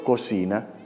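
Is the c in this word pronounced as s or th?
s. The second c is pronounced as an s sound. This is how the locals say it. The speaker calls it wrong. "Por ejemplo, cocina"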